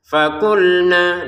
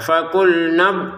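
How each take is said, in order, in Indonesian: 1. Vokal akhir ditahan selama dua ketukan. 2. Vokal akhir dipotong pendek ke kata berikutnya. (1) "Fakulna dua harokat kalau berhenti" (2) "Kalau disambung"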